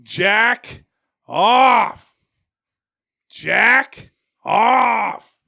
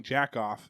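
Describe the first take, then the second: First: High, loud yell at a dog; re-enacted backyard dog-training yell. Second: Said in the usual way. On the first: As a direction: shout two separate commands, each drawn out. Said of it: "I would be yelling". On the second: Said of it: "I didn't realize I was yelling".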